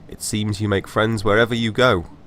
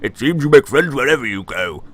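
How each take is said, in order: First: It is said in the speaker's natural voice. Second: It is said in a put-on voice for Fogg.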